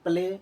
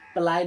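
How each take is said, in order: First: The vowel sounds like 'ay'. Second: The vowel sounds like 'eye'. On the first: The speaker calls it right. "इसको हम पढ़ेंगे प्ले" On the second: The speaker calls it wrong. "प्लाई नहीं पढ़ना है"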